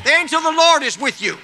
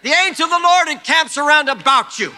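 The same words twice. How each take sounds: First: Shouted louder and higher, driving faster; fast preaching shout. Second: Full-force preacher shout, higher and louder; preaching shout. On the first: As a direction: fire it at them quickly. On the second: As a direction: shout the promise over the congregation. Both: Acted.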